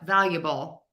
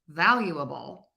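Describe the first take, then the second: First: The middle schwa vowel is nearly swallowed. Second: The middle schwa vowel is clearly heard. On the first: "you probably can't because that ya influences that schwa there" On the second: "I have that uh in there"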